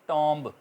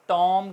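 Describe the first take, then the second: First: The word ends with an audible b sound. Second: The word ends on m with no b. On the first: The speaker calls it wrong. "ना कि टॉम्ब" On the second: The speaker calls it right. "टॉम कहेंगे"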